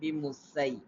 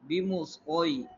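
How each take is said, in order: First: The s sound is thin and light. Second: The s sound is thick and heavy. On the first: The speaker calls it wrong. "rather than" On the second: The speaker calls it right. "in a thick tone"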